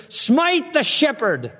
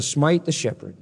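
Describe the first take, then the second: First: Very slow, much higher "Smite the shepherd"; commanding proclamation. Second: Said in the usual way. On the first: Acted. God ordering the sword to strike, slow and lifted. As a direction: stretch out "Smite the shepherd" as a solemn decree.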